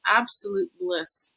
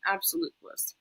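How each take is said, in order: First: Said in the usual way. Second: Breathy whisper of awe. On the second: Shown as a demonstration. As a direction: whisper it like a secret. Repeating the phrase for effect.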